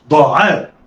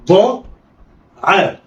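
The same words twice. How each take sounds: First: "ضاعاء" joined in one quick go; snatch "ضاعاء" with no pause; snatched together. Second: "ضاء", pause, then "عاء"; letters sounded apart. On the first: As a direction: blend "ضاعاء" like one word. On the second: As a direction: say "ضاء" and "عاء" as separate syllables. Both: Shown as a demonstration. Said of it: "دي طريقة الخطف".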